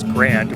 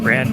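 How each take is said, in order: First: The word ends with a d sound. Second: The word ends without a d sound. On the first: The speaker calls it wrong. "I was pronouncing it incorrectly for a while as Grand with a D" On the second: The speaker calls it right. "That's G R A N"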